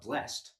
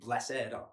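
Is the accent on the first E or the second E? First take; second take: first E; second E. First: The accent falls on the first E. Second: The accent falls on the second E. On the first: "one's on the first E" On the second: "accent on the second E"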